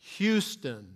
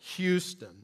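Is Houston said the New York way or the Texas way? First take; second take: Texas; Texas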